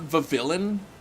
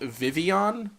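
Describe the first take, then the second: First: The double L is said as an L. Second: The double L sounds like a Y. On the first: The speaker calls it wrong. "you don't say the L's in it?" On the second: The speaker calls it right. "So the L is silent?"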